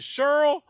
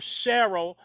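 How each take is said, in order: First: The first vowel sounds like the vowel in pearl. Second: The first vowel sounds like the vowel in Carol. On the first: "that rhymes with Pearl" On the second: "that rhymes with Carol"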